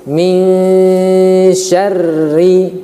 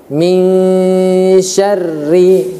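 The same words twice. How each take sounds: No difference in how they are said.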